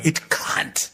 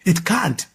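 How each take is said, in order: First: Breathy whispered it can't; hushed It can't, no voice. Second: Can't pressed and falling in It can't; a final, falling It can't; firm stress. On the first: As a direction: whisper the words It can't under your breath. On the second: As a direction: land hard on can't, falling. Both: Shown as a demonstration.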